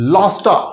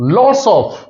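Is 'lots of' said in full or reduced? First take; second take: reduced; full. First: The words blend into one word ending in uh. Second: Both words are said separately and clearly.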